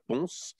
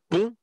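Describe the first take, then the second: First: The final s is pronounced. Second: The final s is silent. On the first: The speaker calls it wrong. "ça se ne prononce pas Ponce, comme beaucoup de, de, d'extérieurs au département le prononcent" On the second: The speaker calls it right. "ça s'écrit P O N S"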